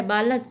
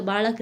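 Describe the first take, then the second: First: Said in the usual way. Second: बालक with Marathi-like ळ; retroflex l. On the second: Shown as a demonstration. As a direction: say बालक with tongue curled back on l. (बालक में मूर्धन्य ळ) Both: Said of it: "के समान मूर्धन्य रूप में".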